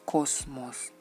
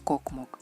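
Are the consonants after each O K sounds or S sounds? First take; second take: S sounds; K sounds. First: S sounds follow each O. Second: K sounds follow each O. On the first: The speaker calls it right. "es cosmos" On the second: The speaker calls it wrong. "pero no es kokmok"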